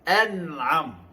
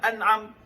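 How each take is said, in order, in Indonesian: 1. Bunyi n diberi panjang yang sedang dan jelas. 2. Bunyi n dihentikan dengan cepat dan ditahan. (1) "pada kadarnya. An'am begitu" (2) "Tidak dibaca syiddah"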